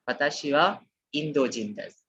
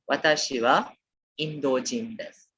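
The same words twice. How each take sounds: The two takes are said the same way.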